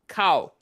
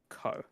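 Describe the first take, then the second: First: The vowel glides from 'a' to 'o'. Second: The vowel is a single plain 'o'. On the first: This is the original Japanese word. "the Japanese word for face is kao" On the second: This is how the show pronounces it. "the way that they're pronouncing it sounds like it's ko"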